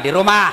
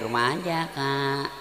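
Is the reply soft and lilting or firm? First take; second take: firm; lilting. First: It is said in a firm, curt voice. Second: It is said in a soft, lilting voice.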